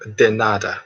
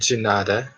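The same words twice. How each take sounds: First: It is pronounced the Spanish way. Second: It is pronounced the Portuguese way. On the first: "Spanish is uh" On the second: "Portuguese is uh"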